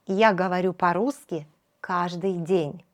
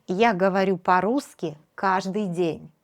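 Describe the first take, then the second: No difference in how they are said.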